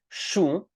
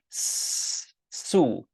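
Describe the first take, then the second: First: The word starts with an sh sound. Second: The word starts with a plain s sound.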